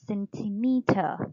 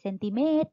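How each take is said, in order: First: It is said with a Western English accent. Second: It is said with a flat Thai accent. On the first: The speaker calls it right. "เราก็ใส่จริตแบบฝรั่งเข้าไปนะคะให้มันเป็น" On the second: The speaker calls it wrong. "ไม่ใช่"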